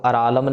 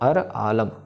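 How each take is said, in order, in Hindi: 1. दोनों शब्द एक साथ जुड़े हैं। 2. दोनों शब्द बीच में साफ़ रुककर बोले गए हैं। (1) "सो अरालम नहीं करना, इसको ऐसे नहीं पढ़ना।" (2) "अर अर खत्म होगा फिर आलम आएगा"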